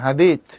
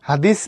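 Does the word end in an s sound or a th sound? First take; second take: th; s. First: The word ends in a th sound. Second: The word ends in an s sound. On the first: This is the Arabic form. The speaker calls it right. "এই টাইপের উচ্চারণ আরবিকে" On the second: This is the local form, not the Arabic one. The speaker calls it wrong. "হাদিস না"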